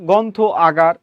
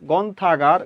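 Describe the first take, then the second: First: The two words are said separately. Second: The two words merge into one quick word.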